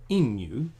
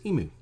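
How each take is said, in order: First: Emu with a y-glide, EE-myoo; Australian pronunciation. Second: Emu without the glide, EE-moo; American pronunciation. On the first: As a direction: emu punched high and loud as EE-myoo. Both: Shown as a demonstration. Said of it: "they automatically think".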